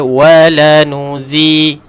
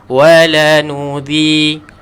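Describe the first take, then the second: First: The consonant is a buzzing 'z' sound. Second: The consonant is a soft 'th' sound. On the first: The speaker calls it wrong. "jangan baca wala nuzi. Salah" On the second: The speaker calls it right. "Keluarkan lidah kita untuk menyebutkan huruf zal"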